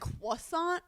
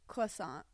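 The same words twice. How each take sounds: First: The first syllable is a French-style 'kwa'. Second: The first syllable is between English and French. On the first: "I don't say croissant. I don't go qua" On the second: "I just go croissant. So it's like in between"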